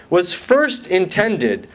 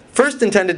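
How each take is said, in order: First: "first intended" slow and deliberate, each word set apart; stress on FIRST INTENDED. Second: Said in the usual way. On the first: Shown as a demonstration. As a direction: lean hard on "first intended", unhurried. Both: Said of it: "I emphasize the words first intended".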